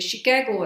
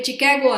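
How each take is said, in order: First: The word begins with a sh sound. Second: The word begins with a ch sound. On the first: The speaker calls it right. "ಅನ್ಬೇಕು" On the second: The speaker calls it wrong. "ಅನ್ಬಾರ್ದು"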